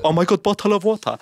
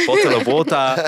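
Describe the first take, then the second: First: High mock-swooning "Oh my God, bottle of water"; gushing fan. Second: British "Bottle of water" with the t said crisp and the r dropped; British accent. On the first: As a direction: swoon at the British accent like a smitten listener. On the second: Retold or imitated. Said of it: "I'll say".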